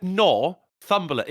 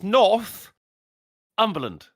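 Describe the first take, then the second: First: Northumberland split as Nor, pause, thumberland; imitated mispronunciation. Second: Northumberland split as North, long pause, umberland; corrected pronunciation. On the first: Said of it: "No, you said Northumberland". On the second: Shown as a demonstration. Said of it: "It's Northumberland".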